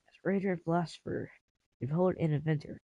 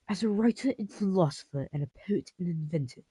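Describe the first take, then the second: First: It is said in his normal voice. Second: It is said in a changed, put-on voice.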